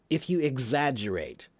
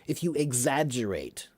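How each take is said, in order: No difference in how they are said.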